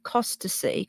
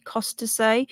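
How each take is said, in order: First: Costasea ending in "see"; unsure pronunciation. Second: Costasea ending in "say"; alternative pronunciation. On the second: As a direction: try Costasea with a final "-say", questioning rise. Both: Shown as a demonstration. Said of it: "is it Costasea".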